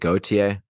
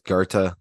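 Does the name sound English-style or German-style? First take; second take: English-style; German-style. First: The name is said in an English-style way. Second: The name is said in a German-style way. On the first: The speaker calls it wrong. "in the episode about him, um, I pronounced it Gautier" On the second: The speaker calls it right. "The closest you could get is Goethe, like that. That's how the Germans say it"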